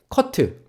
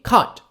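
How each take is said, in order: First: The final T is released with a vowel. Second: The final T is stopped and barely heard. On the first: The speaker calls it wrong. "커트에서 트를요 줄여주세요" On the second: The speaker calls it right. "T 발음 약하게 말해줘"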